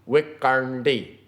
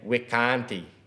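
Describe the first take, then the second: First: The middle consonant is retroflex, tongue curled back. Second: The middle consonant is plain, tongue not curled. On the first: The speaker speaks the language properly. The speaker calls it right. "To say this one properly, ... curl your tongue back" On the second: The speaker is understood but is not speaking correctly. The speaker calls it wrong. "some people would say with an English mindset and an ear and a tongue would say"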